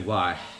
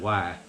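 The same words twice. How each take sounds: First: It is said in a general American accent. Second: It is said in a Southern US accent. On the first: "I didn't just say why" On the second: "I said why"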